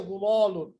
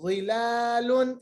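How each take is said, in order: First: The whole word is said heavy, lips rounded. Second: Only the first sound is heavy, rest unrounded. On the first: The speaker calls it wrong. "बहुत सारे पढ़ेंगे ज़ुलालुन, बहुत गलत पढ़ेंगे" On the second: The speaker calls it right. "सिर्फ ज़ा को आप मोटा पढ़ेंगे"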